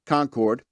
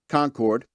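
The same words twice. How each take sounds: First: The stress is on the second syllable. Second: The same.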